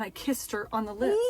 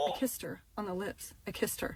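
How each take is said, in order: First: Said in the usual way. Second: Quiet, sinking repeat of an embarrassing admission; hushed confession. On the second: Real, not acted. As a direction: drop your voice, mortified.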